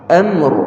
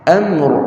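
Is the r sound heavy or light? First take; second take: heavy; heavy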